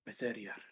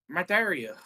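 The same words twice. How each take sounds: First: It is said in a voice that is not Flo's. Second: It is said in Flo's character voice.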